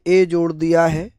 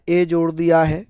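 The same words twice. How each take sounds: The two takes are said the same way.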